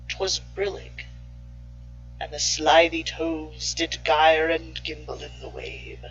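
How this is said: It is recited in a dark, sinister voice. "if you put it with a sinister voice"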